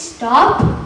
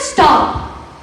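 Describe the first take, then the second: First: It is said as a mild suggestion. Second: It is said as a firm command.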